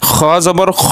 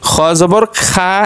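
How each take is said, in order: First: The final syllable ends in a rounded 'o' vowel. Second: The final syllable ends in an open 'a' vowel. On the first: The speaker calls it right. "এটা শুদ্ধ" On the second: The speaker calls it wrong. "এটা ভুল"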